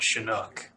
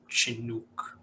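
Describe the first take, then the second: First: The word begins with a sh sound. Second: The word begins with a ch sound. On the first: "I personally would say it Chinook, like with an S H" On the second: "instead of a Chinook"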